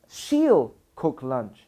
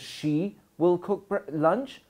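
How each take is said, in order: First: Will is shortened and joined to she. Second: Will is said as a full separate word.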